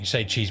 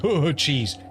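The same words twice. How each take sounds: First: Said in the usual way. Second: "cheese" said higher and louder, knowingly; a knowing nudge on "Oh, cheese"; slyly in on the joke. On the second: Shown as a demonstration. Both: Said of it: "but you think".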